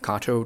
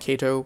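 First: The first vowel sounds like 'ah'. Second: The first vowel sounds like 'ay'. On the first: The speaker calls it right. "At Kato" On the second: The speaker calls it wrong. "not Kato, KAHTONOTKAYTO"

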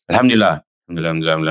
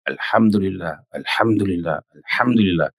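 First: It is said fast, rushed. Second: It is said slowly, with care.

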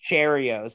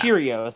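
First: The first syllable sounds like 'chair'. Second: The first syllable sounds like 'cheer'. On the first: The speaker calls it wrong. "like you're gonna sit in a chair" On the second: The speaker calls it right. "like you're cheering for the team"

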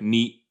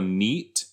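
First: The final T sound is dropped. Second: The final T sound is pronounced. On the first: "if you don't say that the T in neat" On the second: "if you go neat"

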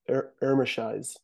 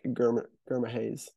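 First: The name starts without a G sound. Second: The name starts with a hard G sound. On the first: This is how the commentators say it. "They say they don't really pronounce the G" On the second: This is how the speaker says it. "but there is a G there, so it's kind of like"

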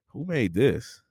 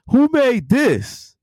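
First: It sounds disgusted and full of disapproval. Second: It sounds impressed and full of praise.

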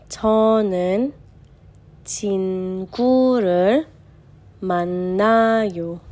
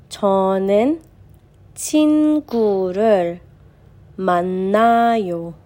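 No difference in how they are said.

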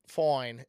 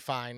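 First: The word has a drawn 'oy'-like vowel. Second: The word has its ordinary 'eye' vowel. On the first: The hair looks great. "not like foin" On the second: The hair is thin. "like literally fine"

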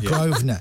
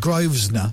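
First: The S in the middle is silent. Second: The S in the middle is pronounced. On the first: The speaker calls it right. "it's a silent S, dude. It's the Grosvenor" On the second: The speaker calls it wrong. "It's not the Grosvenor"

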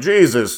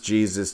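First: It is said as an exasperated curse. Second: It is said calmly, as a reverent prayer.

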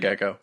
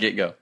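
First: The middle sounds blur into a single k sound. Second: A clear t is followed by a separate g. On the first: The speaker calls it wrong. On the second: The speaker calls it right.

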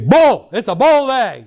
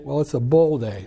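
First: It is said positively, with enthusiasm. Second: It is said hesitantly, without enthusiasm.

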